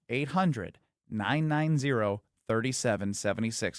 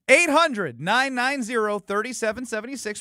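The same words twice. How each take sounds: First: The number is said slowly. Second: The number is said at normal speed.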